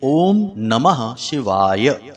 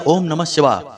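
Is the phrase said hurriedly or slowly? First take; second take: slowly; hurriedly. First: It is said slowly, each word fully pronounced. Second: It is said quickly, the words rushed together. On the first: The speaker calls it right. "इस प्रकार आपको शुद्ध उच्चारण करना है" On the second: The speaker calls it wrong. "जल्दबाजी में"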